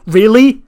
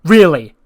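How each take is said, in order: First: High, loud, rising mock disbelief; incredulous really. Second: Flat repeated really. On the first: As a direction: throw it up in a louder, higher disbelieving question. Acted quarrel, incredulous. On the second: Retold or imitated. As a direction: drop it down like you are done with her. Acted quarrel, repeated flatter.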